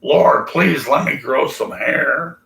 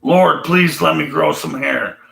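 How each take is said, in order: First: 1 mock pleading prayer. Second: 1 louder mock plea. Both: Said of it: "I would say".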